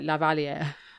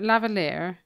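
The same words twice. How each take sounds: First: It is pronounced in a strongly French-sounding way. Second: It is pronounced in an English-sounding way.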